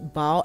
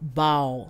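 First: The vowel is said short. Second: The vowel is said long. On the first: The speaker calls it right. "because it has one A, it's A. So you say bal" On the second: The speaker calls it wrong. "and not bal"

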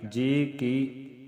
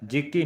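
First: The two words are said separately. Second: The two words are run together. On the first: The speaker calls it right. "ਵੱਖਰਾ ਬੋਲਣਾ" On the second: The speaker calls it wrong. "ਨਹੀਂ ਕਹਿਣਾ"

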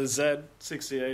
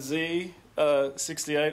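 First: The letter Z is said as 'zed'. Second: The letter Z is said as 'zee'. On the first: This is the English or Australian way of saying it. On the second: This is the American way of saying it.

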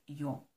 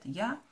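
First: The vowel is a rounded 'oh' sound. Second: The vowel is an open 'ah' sound. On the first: This is how it is said in Austria. "а в Австрии говорят «йо»" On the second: This is how it is said in Germany. "в Германии говорят «я»"

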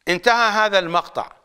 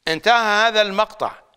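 No difference in how they are said.

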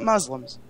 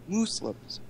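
First: The word has its ordinary pronunciation. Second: The word has an unusual, imitated pronunciation. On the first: This is not how the imitated person says it. "Not Muslims" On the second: This mimics how someone else says it. "as he likes to say"

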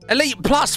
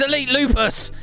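First: The name ends in a single syllable, 'plus'. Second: The name ends in two syllables, 'lupus'. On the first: The speaker calls it wrong. "why do people say it like that?" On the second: The speaker calls it right. "It's Elitelupus"

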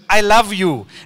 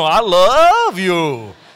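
First: The words are said flatly and matter-of-factly. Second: The words are drawn out sweetly and melodiously. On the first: "The password is to make a statement" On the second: "and to say it with a little bit of tajweed"

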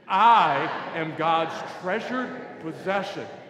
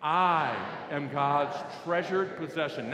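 First: It is said loudly and with conviction. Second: It is said clearly at normal volume.

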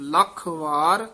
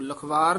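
First: The two parts are said as separate words. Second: The two parts are run together as one word. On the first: The speaker calls it right. "ਲੱਖ ਵਾਰ ਜੀਓ" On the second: The speaker calls it wrong. "ਲਖਵਾਰ ਨਹੀਂ ਕਹਿਣਾ"

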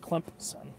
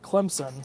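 First: The middle consonant sounds like a P. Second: The middle consonant sounds like a Z. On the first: The speaker calls it right. "If you're from here, you call it Clemson" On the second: The speaker calls it wrong. "like with a Z, it sounds like a Z instead of a P, they're saying it wrong"

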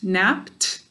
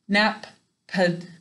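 First: It is one syllable ending in t. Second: It is split into two syllables. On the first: The speaker calls it right. "when it's saying its third sound, t" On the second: The speaker calls it wrong. "I don't say nap-ped"

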